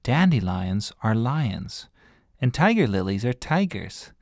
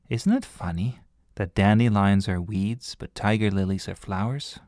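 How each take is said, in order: First: Slow, patient explanation of the joke; slow explaining. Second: Said in the usual way. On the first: Acted. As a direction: spell it out slowly so they get it. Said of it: "she imagined having to explain it". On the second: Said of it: "Then she thought".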